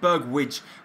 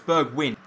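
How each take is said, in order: First: The name ends with a 'widge' sound. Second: The name ends with a 'win' sound. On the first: The speaker calls it wrong. "for some reason I keep saying Bergwidge when it's not" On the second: The speaker calls it right. "It's Bergwin"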